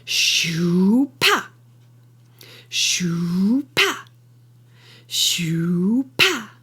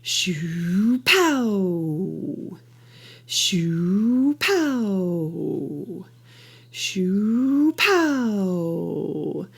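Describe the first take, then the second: First: "shoo" swoops up into an abrupt, punched "pa"; all the force on the final "pa", cut dead; impact accent. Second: "shoo" swells to a peak at "pow", then a long fade; drawn-out rise and fall peaking mid-phrase on "pow"; surge accent in the middle. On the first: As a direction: build through "shoo" and slam to a stop on "pa". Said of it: "I like to verbalize my impact accents as". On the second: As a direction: surge up through "shoo", burst on "pow", let it trail away. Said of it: "So it'd be something like this". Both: Shown as a demonstration.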